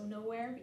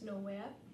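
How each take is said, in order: First: The R sound after the vowel is pronounced. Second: The R sound after the vowel is dropped.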